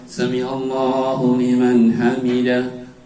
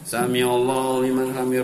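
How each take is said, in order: First: It is recited slowly and calmly. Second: It is recited quickly and hurriedly. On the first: The worshipper stays still while reciting. The speaker calls it right. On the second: The worshipper recites while still moving. The speaker calls it wrong. "Namanya bergerak tahu. Namanya enggak tumanina"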